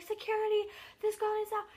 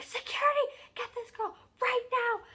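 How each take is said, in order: First: High-pitched imitation of people calling out; mock urgent call, pitched well up; calling for help. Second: Very high, loud imitation of panicked yelling; freaking out. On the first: Crowd calling security over to a girl, urgent retold call. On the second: Crowd screaming for security to get her, freaking out. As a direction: yell it frantically, as a retold crowd. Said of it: "people are, like, freaking out".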